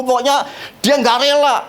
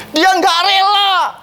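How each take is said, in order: First: Said in the usual way. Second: "Dia nggak rela" slow, high and pressed; stress on dia nggak rela. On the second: Shown as a demonstration. ("Dia nggak rela" diucapkan lambat dan tinggi)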